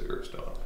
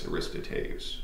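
First: The name is said with four syllables. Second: The name is said with five syllables. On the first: This is the common form of the name. "everybody says Aristotle" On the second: This is the original form of the name. "if you want to pronounce it actually properly"

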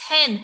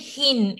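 First: The vowel sounds like the one in 'pen'. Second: The vowel sounds like the one in 'pin'. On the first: The speaker calls it right. "it's hen. Eh, eh, for the letter E" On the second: The speaker calls it wrong. "we don't say hin"

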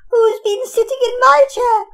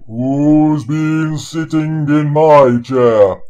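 First: It is said in a tiny, high little voice. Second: It is said in a big, deep bear voice.

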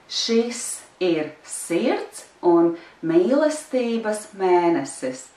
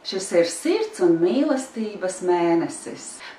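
First: It is said slowly. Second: It is said fast.

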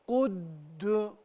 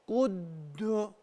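The two takes are said the same way.

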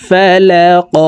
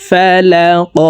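The two takes are said the same way.

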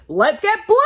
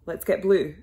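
First: It is said loudly, with lots of energy. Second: It is said flatly, with little energy. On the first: The speaker calls it right. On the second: The speaker calls it wrong.

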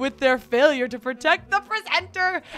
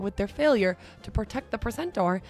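First: It is read in a put-on British accent. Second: It is read in a plain American accent. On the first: The speaker calls it wrong. "I'm sorry for anyone on the chat who's actually from Britain" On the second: The speaker calls it right. "let me read it again in my reading voice"

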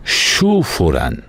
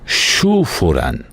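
First: The name is split into two separate words. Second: The name is split into two separate words.

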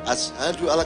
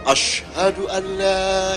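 First: The first word has a plain 's' sound. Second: The first word has an 'sh' sound. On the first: It is how someone who cannot say the letter says it. The speaker calls it wrong. "Dia hanya" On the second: It is how it should be said. The speaker calls it right.

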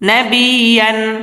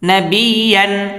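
The two takes are said the same way.

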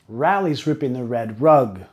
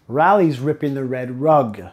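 No difference in how they are said.

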